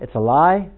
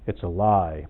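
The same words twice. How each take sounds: First: It is said lightly, with a smile. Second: It is said sternly, without a smile. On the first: "I could say that with a smile" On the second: "Or I could say it like"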